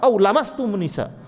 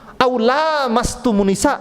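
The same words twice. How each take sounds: First: The vowel after the L is kept short. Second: The vowel after the L is held long. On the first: It means touching. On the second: It means touching each other.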